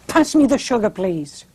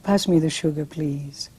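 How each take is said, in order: First: It sounds tense and hurried, like someone running late. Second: It sounds soft and tender, like cooing at a kitten. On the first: The speaker is worried about being late. "The thought that comes to my mind is, oh, I am late" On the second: The speaker is charmed by something cute. "oh, you look so cute"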